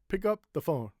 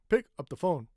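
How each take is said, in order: First: The word 'up' is stressed along with 'pick'. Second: The word 'up' is reduced and unstressed. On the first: The speaker calls it right. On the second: The speaker calls it wrong.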